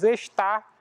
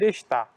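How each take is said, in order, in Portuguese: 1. O som do R final é pronunciado. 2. O som do R final é omitido. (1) "Ao invés de dizermos estar" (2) "costumamos dizer está"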